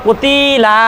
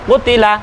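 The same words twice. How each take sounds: First: One vowel is stretched out long. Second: All three vowels are equally short. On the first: The speaker calls it wrong. "এইভাবে কোনোটাই হবে না" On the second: The speaker calls it right. "তিনটা একেবারে সমান হবে, কোনোটা লম্বা হবে না"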